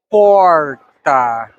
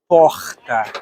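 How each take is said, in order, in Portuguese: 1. Fala-se com sotaque paulistano. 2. Fala-se com sotaque carioca. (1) "Em São Paulo" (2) "É assim que a gente fala no Rio de Janeiro"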